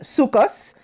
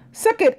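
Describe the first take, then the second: First: The word ends with an s sound. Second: The word ends with a t sound.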